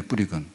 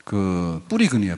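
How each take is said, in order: First: Soft repeat. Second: Said in the usual way. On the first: Shown as a demonstration. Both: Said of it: "근은 뭐냐면".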